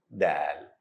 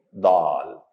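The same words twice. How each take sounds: First: The letter is said light, with a thin sound. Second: The letter is said heavy, with a full sound. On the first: The speaker calls it right. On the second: The speaker calls it wrong. "Don't say dal"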